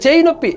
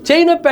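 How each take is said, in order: First: Said in the usual way. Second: Mock pained whine, pitched higher. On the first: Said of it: "అంట, చేయి నొప్పి". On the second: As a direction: whine it like a faked complaint. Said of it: "అంట".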